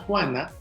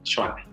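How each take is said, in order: First: The name starts with the Spanish j sound. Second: The name starts with an sh sound. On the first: This is the original Spanish name. "el sonido J en los nombres como Juana" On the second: This is the name adapted to Nahuatl. "la pronunciación era Xuana"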